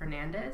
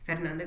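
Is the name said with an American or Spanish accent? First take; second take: American; Spanish. First: The name is said with an American accent. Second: The name is said with a Spanish accent. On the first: The speaker calls it wrong. "I don't say Fernandez" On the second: The speaker calls it right. "I say it in Spanish"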